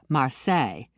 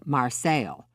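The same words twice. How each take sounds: First: The name is said the French way. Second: The name is said the local American way. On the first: This is how the French city is said. "not the French" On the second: This is how the town's residents say it. "The local pronunciation was"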